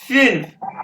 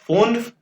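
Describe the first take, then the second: First: The vowel sounds like 'ee'. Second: The vowel sounds like 'oo'. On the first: The speaker calls it right. "ये यू है फिन्फ" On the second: The speaker calls it wrong. "इसको आपने फुन्फ नहीं कहना"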